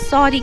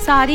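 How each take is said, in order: First: The first vowel is a rounded 'aw'. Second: The first vowel is a long open 'aa'. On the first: The speaker calls it right. "सॉरी कहते हैं" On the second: The speaker calls it wrong. "सारी नहीं पगलू"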